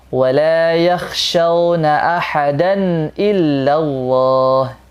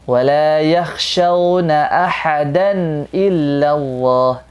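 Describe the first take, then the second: The two takes are said the same way.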